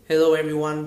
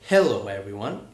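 First: The words are said flat, without clear stress. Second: First syllables are stressed, with a falling tune. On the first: The speaker calls it wrong. "instead of saying hello everyone" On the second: The speaker calls it right. "with a little bit of stress on the first syllable and a little bit of falling intonation"

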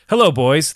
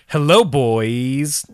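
First: The greeting is read in a normal, plain tone. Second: The greeting has an exaggerated, playful inflection. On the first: The reader is reading the letter sincerely. The speaker calls it right. "Let me say it regularly" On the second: The reader is joking around. The speaker calls it wrong. "I added that inflection"

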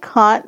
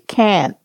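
First: It is said in a non-American accent. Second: It is said in an American accent. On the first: "they don't say can't" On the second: "They say can't"

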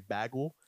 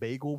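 First: The word is said with a New York pronunciation. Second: The word is said with a standard pronunciation. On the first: "people say that New Yorkers... we say bagel" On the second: "instead of saying bagel"

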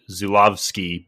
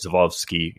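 First: The name is said with plain English sounds. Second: The name is said with Polish sounds. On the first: "I think it is like said just straight" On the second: "but I think with a Polish accent, that's where you get"

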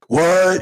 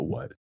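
First: It is a loud, flat redneck shout. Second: It rises like a puzzled question.

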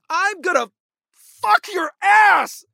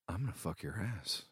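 First: It is said with lively expression. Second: It is said flat and emotionless.

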